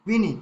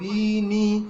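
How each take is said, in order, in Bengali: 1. স্বরটি ছেঁটে হ্রস্ব করে বলা হয়। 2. স্বরটি টেনে দীর্ঘ করে বলা হয়। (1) "হর্ষ করতে হবে কিভাবে" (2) "এরকম করে উচ্চারণ করি বিনি তাহলে দীর্ঘ উচ্চারণ হয়ে যাবে"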